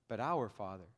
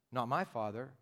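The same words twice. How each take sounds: First: "our" set against the last take, low and soft; stress on OUR. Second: "my" singled out, ending on a rise; stress on MY. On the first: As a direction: answer with weight on "our". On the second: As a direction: contrast "my", leaving it hanging upward. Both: Shown as a demonstration.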